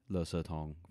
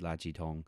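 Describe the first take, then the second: First: It is said the Taiwanese way, 'le se'. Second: It is said the mainland way, 'la ji'.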